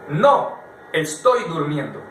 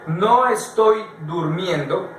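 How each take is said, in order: First: There is a pause after no. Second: It is said without a pause after no.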